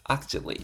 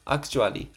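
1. 真ん中の'a'の母音は、省略します。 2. 真ん中の'a'の母音は、しっかり発音します。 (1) "A の音消して" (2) "あの音強く読んじゃうんですよね"

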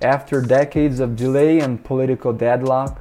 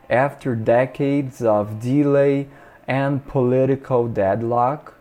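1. A frase é lida em velocidade normal. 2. A frase é lida mais devagar.

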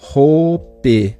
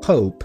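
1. A palavra termina com um som de vogal acrescentado. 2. A palavra termina em um P suave, sem soltar o som. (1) "Então eu não falo hope, não é assim que eu pronuncio essa palavra" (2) "e depois o P mudo"

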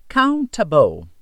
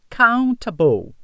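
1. A consoante do meio é um T nítido. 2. A consoante do meio é um T nítido.

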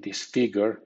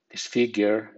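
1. Se dice con acento británico. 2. Se dice con acento americano. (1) "en británico" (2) "en americano"

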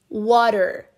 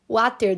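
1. A consoante do meio é um toque rápido, parecido com r. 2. A consoante do meio é um som de t claro. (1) "a gente escuta ... como um R" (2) "Mas a gente escreve water"

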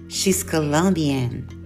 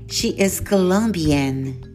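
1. O verbo é reduzido e unido ao pronome. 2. O verbo é dito por extenso, como duas palavras. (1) "seguida da forma contracta ou forma reduzida" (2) "sempre a forma completa"

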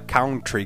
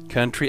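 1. A primeira sílaba soa como 'cow'. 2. A primeira sílaba soa como 'cun'. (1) "A palavra country não se fala country, como é muito comum de se ouvir aqui" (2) "Country é país"

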